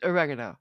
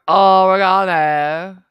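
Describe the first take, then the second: First: It is pronounced the American way. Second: It is pronounced the British way. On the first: The speaker calls it right. "just like the Italians and the Americans" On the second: The speaker calls it wrong. "is wrong"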